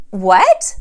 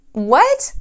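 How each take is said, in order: First: Louder disbelieving "What?"; shocked what. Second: "What?" pitched higher in disbelief; higher shocked what. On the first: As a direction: react in disbelief. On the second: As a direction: ask it again, more stunned. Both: Retold or imitated. Sees blue Pinto, not Ferrari.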